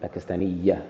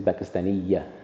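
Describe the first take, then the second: The two takes are said the same way.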